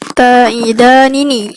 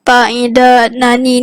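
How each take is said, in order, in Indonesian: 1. Bunyi n pertama diikuti vokal i. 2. Bunyi n pertama diikuti vokal a. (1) "dibaca dengan kasrahkan nun yang pertama" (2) "kita fathahkan nun yang ta'ida nani ni"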